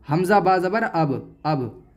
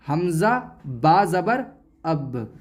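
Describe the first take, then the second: First: अब read straight through, final b closed without a bounce; no qalqalah. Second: Slow spelling, then अब with a slight jolt on the b; qalqalah bounce. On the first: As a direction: stop the b of अब short, no echo after it. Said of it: "इसको ऐसे नहीं पढ़ेंगे". (अब बिना झटके के) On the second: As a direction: release the final b of अब with a small echo. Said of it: "बल्कि थोड़ा सा झटका लगाएंगे". (अब के ब पर थोड़ा सा झटका) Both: Shown as a demonstration.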